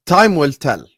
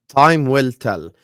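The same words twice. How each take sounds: First: Said in the usual way. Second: Slowed right down, each word weighed; slow emphatic repeat. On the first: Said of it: "repeats phrase for emphasis". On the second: Real, not acted. Pundit to co-hosts on Trent's move, slow and weighty. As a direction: let it land slowly, like a verdict. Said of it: "repeats phrase slower, weightier".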